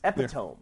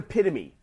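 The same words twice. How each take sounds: First: The word ends with a 'tome' sound. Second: The word ends with a 'tuh-mee' sound. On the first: The speaker calls it wrong. "I read it as epitome" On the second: The speaker calls it right. "I knew the word epitome"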